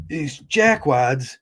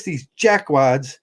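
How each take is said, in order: First: "jackwads" drawn out slowly and deliberately; slow emphasis. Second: Said in the usual way. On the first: Shown as a demonstration. Telling viewers what he thinks of marriage advocates, slow emphatic "jackwads". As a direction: lean hard on "jackwads", slow it right down. Repeats insult, slowed.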